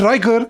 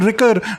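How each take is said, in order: First: The first vowel is long, as in 'ride'. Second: The first vowel is short, as in 'rick'. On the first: "not Riker" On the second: "I've always called him Sean Ricker"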